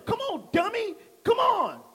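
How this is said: It is said in a harsh tone.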